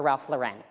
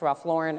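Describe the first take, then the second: First: Lauren stressed on the second syllable; alternative pronunciation. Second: Lauren stressed on the first syllable; first pronunciation. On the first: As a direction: say Lauren as lau-REN. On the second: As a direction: say Lauren as LAU-ren. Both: Shown as a demonstration. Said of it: "if it's really pronounced".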